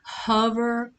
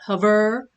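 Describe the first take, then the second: First: The stress is on the first syllable. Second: The stress is on the second syllable. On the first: The speaker calls it right. "with the stress on the first syllable" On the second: The speaker calls it wrong. "not hover"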